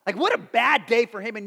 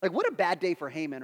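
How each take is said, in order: First: BAD punched loud; emphatic repeat. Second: Said in the usual way. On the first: Real, not acted. Preacher relishing Haman's downfall to the congregation, "bad" emphatic. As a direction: hit "bad day" hard and louder.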